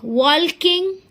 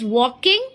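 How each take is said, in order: First: The L sound is clearly pronounced. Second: The L sound is left silent. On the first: The speaker calls it wrong. "which is incorrect pronunciation, wrong pronunciation" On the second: The speaker calls it right. "Correct pronunciation of this word is walking"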